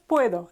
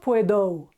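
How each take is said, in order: First: The final vowel is short and crisp. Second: The final vowel is drawn out and gliding. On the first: The speaker calls it right. "just puedo" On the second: The speaker calls it wrong. "it's not puedo"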